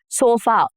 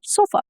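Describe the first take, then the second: First: The final vowel is said fully and clearly. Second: The final vowel is a weak, reduced schwa. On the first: The speaker calls it wrong. "You don't say sofa. We're not that clear when we speak" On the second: The speaker calls it right. "the a sound ... that you hear at the end of the words like sofa"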